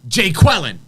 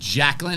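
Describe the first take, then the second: First: The name is split into two separate parts. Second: The name is said as one smooth word. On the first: "he's like Jay Quellen" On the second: "Do you mean Jacqueline?"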